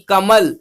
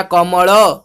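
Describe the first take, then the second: First: "कमल" closed on the l, no final vowel; Hindi halant ending. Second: "कमल" with rounded vowels, as "komolo"; Odia open ending. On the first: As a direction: say "कमल" as "kamal", ending on the consonant. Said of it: "हमेशा हलंत उच्चारण होता है". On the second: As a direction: end "कमल" on an o sound, Odia style. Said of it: "last को ओ आसे ओडिया रे". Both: Shown as a demonstration.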